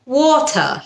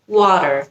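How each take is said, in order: First: It is said in a British accent. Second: It is said in an American accent.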